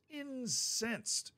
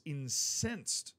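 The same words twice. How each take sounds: First: "Incensed" drawn out and pitched high; emphatic repetition. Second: Said in the usual way. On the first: Real, not acted. Sports host underlining how angry Tottenham was, "Incensed" stretched high for emphasis. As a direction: repeat "Incensed" slowly, high, as its own sentence. Word repeated alone for emphasis.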